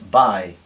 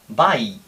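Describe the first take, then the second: First: The final i is soft, short and near e. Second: Both vowels of the diphthong are full and clear. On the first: The speaker calls it right. "La I es claramente más suave y más tirando a E y más corta" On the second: The speaker calls it wrong. "con la A y la I clarísimas"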